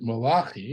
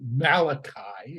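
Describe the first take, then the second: First: The name is said with Hebrew pronunciation. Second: The name is said with English pronunciation.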